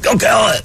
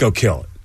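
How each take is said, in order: First: It is said loudly and over the top. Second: It is said in a cool, low-key way.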